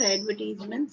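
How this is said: It is said in a British accent.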